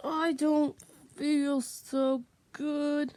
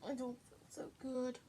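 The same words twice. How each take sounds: First: Loud, drawn-out, slow complaint. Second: Soft, quick, low mumble; quiet and fast. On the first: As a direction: call it out slowly and loudly. Loud slow take, repeated line. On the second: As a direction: say it softly and quickly. Quiet fast take, repeated line. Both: Shown as a demonstration.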